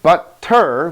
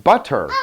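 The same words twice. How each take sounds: First: BUTTER split into but, ter; butter in two detached syllables. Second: Said in the usual way. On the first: Shown as a demonstration. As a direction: say BUTTER as two separate sounds with a gap. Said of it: "If we take another sound, ter". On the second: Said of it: "we come up with butter".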